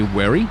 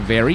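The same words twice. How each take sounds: First: "werry", a W in place of the V of very; Danish-accented "werry" with W replacing V. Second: Said in the usual way. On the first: Shown as a demonstration. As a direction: begin "werry" on a W, as Danes do. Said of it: "you'll say werry". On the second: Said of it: "instead of saying very".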